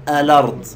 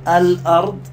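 First: الأرض run together as alard, falling end; dropped hamza. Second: الأرض split as al-'ard, rising end; full hamza. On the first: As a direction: let the l glide into the a, no glottal stop. (الأرض بالنقل وحذف الهمزة) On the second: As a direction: glottal stop after the l in الأرض. (الأرض بتحقيق الهمزة) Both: Shown as a demonstration. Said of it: "هذا قراءة ورش نسميه نقل".

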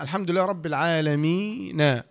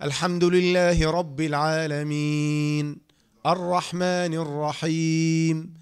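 First: العالمين with its ي held only two counts; natural two-count madd. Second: Slow recitation, العالمين held long on the final ي before the stop; Quran recitation with long madd. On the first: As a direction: recite evenly, giving العالمين just a short natural madd. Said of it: "وإلا لو كان طبيعي فتقول". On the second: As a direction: recite like the imam in prayer, stretching العالمين to four or six counts. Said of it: "مثل ما تسمع القارئ في الصلاة". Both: Shown as a demonstration.

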